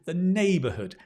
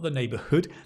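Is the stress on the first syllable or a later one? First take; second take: first; later. First: The stress is on the first syllable. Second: The stress is not on the first syllable. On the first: The speaker calls it right. "Stress on the nay" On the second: The speaker calls it wrong.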